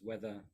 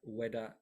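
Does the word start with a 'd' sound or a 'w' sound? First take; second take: th sound; d sound. First: The middle consonant is a th sound. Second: The middle consonant is a d sound.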